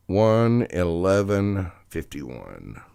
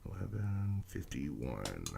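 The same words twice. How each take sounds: First: Slow, loud time call; loud announcement. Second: Slow, very soft repeat; hushed echo. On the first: Reader announcing the time for Leo, loud and slow. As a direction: announce each number slowly and loudly. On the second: Reader repeating the time for Leo, hushed and slow. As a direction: echo the numbers quietly and slowly. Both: Real, not acted.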